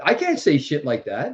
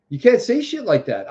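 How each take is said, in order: First: Said in the usual way. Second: "You" thrown high and pointed at them; stress on You. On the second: Acted. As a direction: hit "You can't" higher, accusing. Contrasts you versus I.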